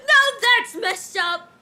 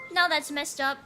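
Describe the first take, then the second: First: Loud, drawn-out disbelief; slow, loud mock outrage; incredulous. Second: Said in the usual way. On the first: Real, not acted. Streamer reacts to chat line, loud mock outrage.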